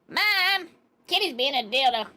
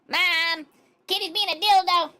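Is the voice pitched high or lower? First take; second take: lower; high. First: The put-on voice is pitched lower. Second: The put-on voice is pitched too high.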